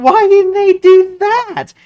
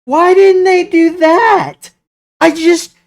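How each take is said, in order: First: High, slow disbelieving plea; exasperated again. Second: High, slow, outraged plea; why, just why, pitched way up; exasperated. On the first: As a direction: drag it out in frustration. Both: Real, not acted. Exasperated fan venting about show.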